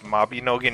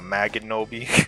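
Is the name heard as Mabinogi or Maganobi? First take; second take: Mabinogi; Maganobi. First: The syllables run ma-bi-no-gi. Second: The syllables run ma-ga-no-bi. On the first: The speaker calls it right. "it's Mabinogi" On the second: The speaker calls it wrong. "not Maganobi"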